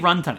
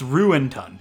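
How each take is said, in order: First: The name starts like the word 'run'. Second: The name starts like the word 'ruined'. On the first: "I love, like, say Runtun" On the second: "It's Ruintun. Like, ruined ton"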